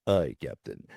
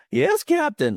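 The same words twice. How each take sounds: First: Low, resonant helmsman's reply; George Takei. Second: Very high, cracking adolescent squeak; really high puberty voice. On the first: Retold or imitated. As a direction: drop into a deep resonant voice. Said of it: "great low resonant voice". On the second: Pretend. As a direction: pitch it way up, like a boy going through puberty. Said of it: "this really high".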